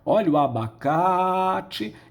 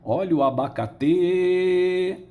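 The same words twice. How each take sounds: First: The stress and lengthening fall on 'ca'. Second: The stress falls on a syllable other than 'ca'. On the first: The speaker calls it right. "Nós vamos esticar a vogal da sílaba tônica" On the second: The speaker calls it wrong. "Ninguém vai dizer"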